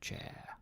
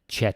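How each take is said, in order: First: The word is stretched out and drawn long. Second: The word is short and flat, without stretching. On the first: The speaker calls it right. "almost always stretched, a little bit at least" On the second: The speaker calls it wrong. "like very robotic and stiff"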